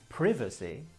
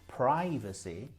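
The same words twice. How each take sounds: First: It is said with a British pronunciation. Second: It is said with an American pronunciation. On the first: "is actually British" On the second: "is American"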